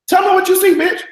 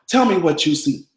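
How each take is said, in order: First: Shrieked way up high and loud; hammed-up squeal of a demand; high loud mock demand. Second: Said in the usual way. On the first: Hosting her viewers, she shrieks the line way up high. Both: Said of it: "just like Claire said".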